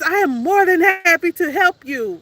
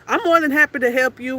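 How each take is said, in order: First: It is said brightly, with a smile in the voice. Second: It is said flatly and bluntly, without warmth. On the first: This is how the caller is supposed to sound. "I have to have a smile in my voice" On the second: This is how the speaker really sounds. "That's how I say it. That's straight up"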